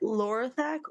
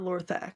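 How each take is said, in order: First: The name is said with three syllables. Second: The name is said with two syllables.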